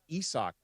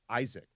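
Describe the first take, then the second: First: It sounds different from the English name Isaac. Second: It sounds like the familiar English name Isaac. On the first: This is how the name is actually said. The speaker calls it right. "it turns out it's Isak" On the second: This is how people assumed the name was said. The speaker calls it wrong. "everybody thought his name was Isaac and that you pronounced it Isaac"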